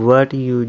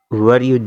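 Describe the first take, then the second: No difference in how they are said.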